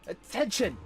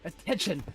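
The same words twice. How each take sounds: First: It is said in a high-pitched voice. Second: It is said in a lower voice.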